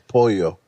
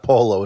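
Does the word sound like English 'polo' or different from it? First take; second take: different; like polo. First: It sounds different from the English word polo. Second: It sounds like the English game name polo. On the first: The speaker calls it right. "it's pollo" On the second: The speaker calls it wrong. "It's not polo"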